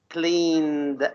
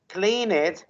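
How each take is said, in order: First: The ending is a plain d sound. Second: The ending is said as an extra syllable. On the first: The speaker calls it right. "I want you to say cleaned" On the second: The speaker calls it wrong. "you you added an extra syllable"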